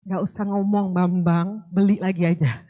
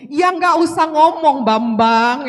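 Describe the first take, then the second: First: Lower, contained version of a scolding; restrained response. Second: Loud, drawn-out exasperated yell; mock angry outburst. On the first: Acted. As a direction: hold the temper back, keep it low. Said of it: "Kalau saya sekarang saya cuma bilang". (menahan marah, nada rendah dan terkendali) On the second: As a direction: re-enact blowing up at someone, slow and loud. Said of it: "Saya sampai gebrak meja loh, se-, kalau waktu itu". (menirukan bentakan marah yang keras)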